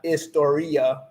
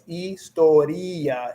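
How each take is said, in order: First: It is said with English-style vowels and sounds. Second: It is said with Spanish vowels and a silent h. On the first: The speaker calls it wrong. "It's not historia like you know you think in English" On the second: The speaker calls it right. "So it's historia"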